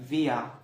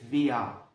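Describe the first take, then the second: Both takes have the same delivery.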